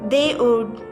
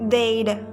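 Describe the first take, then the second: First: Two separate words, both fully pronounced. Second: The words are run together into one syllable.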